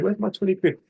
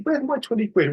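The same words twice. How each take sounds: First: Annoyed repeat. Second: Higher, mock-annoyed grumble over lost money. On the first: Retold or imitated. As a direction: repeat it, grumbling to yourself. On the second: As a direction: moan it like you've been robbed of a tenner. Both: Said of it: "I'd be annoyed about it".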